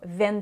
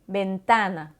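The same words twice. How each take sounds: First: The first sound is like a v. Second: The first sound is like a b. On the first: The speaker calls it wrong. "on ne dira pas" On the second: The speaker calls it right. "en espagnol, le V se prononce comme un B"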